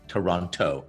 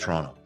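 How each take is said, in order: First: The second T is clearly pronounced. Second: The second T is dropped. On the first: The speaker calls it wrong. "you don't actually say Toronto" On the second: The speaker calls it right. "you don't pronounce the second T"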